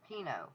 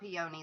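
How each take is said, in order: First: It is said with two syllables, like pee-noh. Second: It is said like the flower name, three syllables. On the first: The speaker calls it right. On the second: The speaker calls it wrong. "Not peony like the flower"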